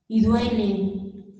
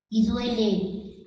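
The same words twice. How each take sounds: First: Slow and heavy. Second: Drawn out and hushed; slower, softer. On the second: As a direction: let it ache softly. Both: Acted.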